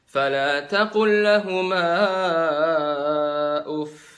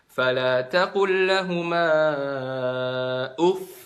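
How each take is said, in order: First: The doubled final sound gets no extra lift. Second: The voice is lifted on the doubled final sound. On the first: The speaker calls it wrong. "Padahal harusnya ada nabernya, jadi nggak diperjelas tuh tasdid" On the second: The speaker calls it right. "angkat suaranya"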